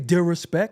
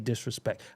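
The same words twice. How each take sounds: First: The word is said loosely, with sounds dropped. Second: The word is said carefully, every sound pronounced. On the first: The speaker calls it wrong. "I don't say disrespect" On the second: The speaker calls it right. "I say disrespect"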